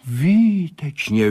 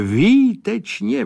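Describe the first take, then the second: First: Drawn-out delighted praise, higher and slower; Výtečně slowly high, then falling; excited cry. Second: Much higher, slow, rising výtečně; rapturous exclamation climbing up; výtečně soaring high with a rise; elated cry. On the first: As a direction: call it out in delight, falling at the end. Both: Acted. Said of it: "volal Sládek".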